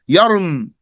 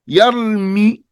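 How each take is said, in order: First: The word ends on a bare consonant. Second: The word ends with a final vowel. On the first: The word is cut at the pause, as the rule requires. The speaker calls it right. "because that's what's correct" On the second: The final vowel is kept to help the listener. The speaker calls it wrong. "I just did you a favor by pronouncing the last haraka"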